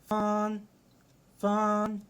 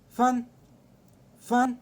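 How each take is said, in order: First: It is said with a flat, level tone. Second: It is said with the fourth tone. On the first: "أول واحدة لها آه زي ما تقول كده آه حتة واحدة" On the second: "رابع لهجة معانا"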